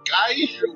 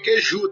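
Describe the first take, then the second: First: The first syllable sounds like 'kai'. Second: The first syllable sounds like 'kay'. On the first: The speaker calls it right. "é caiju" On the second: The speaker calls it wrong. "não é queiju"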